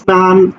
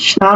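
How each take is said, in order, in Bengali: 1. শব্দটি 's' ধ্বনি দিয়ে শুরু হয়। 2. শব্দটি 'sh' ধ্বনি দিয়ে শুরু হয়। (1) "ইংরেজি এস বর্ণের মতো যখন উচ্চারণ হবে" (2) "স্নান বলি না"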